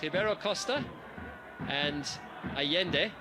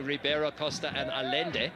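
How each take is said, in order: First: The names are said with native Spanish/Portuguese sounds. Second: The names are said with anglicized English sounds. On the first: The speaker calls it right. "those are in fact the correct pronunciations of those two players' names" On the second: The speaker calls it wrong. "why I'm not saying Ribeiro Costa and Allende"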